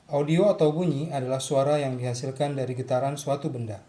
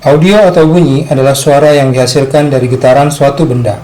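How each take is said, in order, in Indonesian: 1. Rekamannya berlevel sedang dan tidak terdistorsi. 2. Rekamannya terlalu keras dan terdistorsi karena clipping. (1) "audio yang dihasilkan akan lebih baik" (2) "Ini adalah contoh audio clipping"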